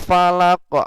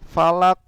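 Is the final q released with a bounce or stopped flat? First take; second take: bounced; flat. First: The final q is released with an echoing bounce. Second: The final q is stopped flat without a bounce. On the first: The speaker calls it right. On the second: The speaker calls it wrong. "nggak boleh"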